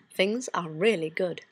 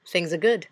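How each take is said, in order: First: Slow down and lean on "really"; "really" drawn out in a slower "Things are really good"; unhurried, weighted stress on "really"; emphatic reassurance. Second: Said in the usual way. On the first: Acted. Repeats it with added emphasis.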